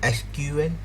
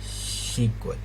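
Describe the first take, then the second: First: It is spelled out as three separate letters. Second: It is said as the single word sequel. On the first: "एक है एसक्यूएल" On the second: "दूसरा है सीक्वल"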